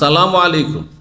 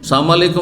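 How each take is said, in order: First: The 'l' sound is clearly pronounced in 'salam'. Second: The 'l' sound is dropped, giving 'sam'. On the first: It wishes peace on the listener. The speaker calls it right. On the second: It wishes death on the listener. The speaker calls it wrong.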